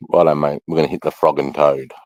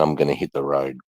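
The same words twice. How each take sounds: First: "frog and toad" said as a breezy Aussie mate; Aussie rhyming slang. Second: Said in the usual way. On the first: Shown as a demonstration. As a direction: lay on the Australian rhyming slang, casual and matey. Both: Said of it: "Okay, we would say".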